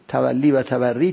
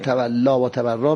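First: Both words end in an 'ee' vowel. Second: Both words end in a long 'a' vowel. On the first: The speaker calls it right. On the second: The speaker calls it wrong.

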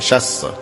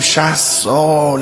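First: It is said very quickly and clipped. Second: It is said slowly and drawn out. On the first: Sixty years seems like almost nothing. "اینقدر براش کمه" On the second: Sixty years seems like a very long time. "چون به نظرمون خیلی زیاد میاد"

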